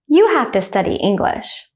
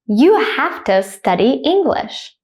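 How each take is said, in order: First: It is said quickly at natural speed. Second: It is said slowly and carefully. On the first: "then at a native speaker speed second" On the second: "I will say it slowly first"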